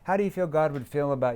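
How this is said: The voice is flat and monotone. The speaker seems to be trying to sell. The speaker calls it wrong. "I said it like this with a monotone voice"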